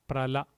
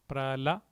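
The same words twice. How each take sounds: Both takes have the same delivery.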